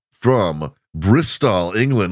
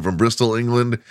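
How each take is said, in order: First: "Bristol, England" said very slowly, each syllable placed; careful place name. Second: Said in the usual way. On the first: Shown as a demonstration. Host names the guest's hometown, slow careful pronunciation. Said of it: "I didn't even have to think about it. I got it right". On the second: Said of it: "You guys love him".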